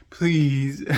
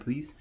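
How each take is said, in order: First: Loud playful plea; pleading. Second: Said in the usual way. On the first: Real, not acted. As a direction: beg them to subscribe.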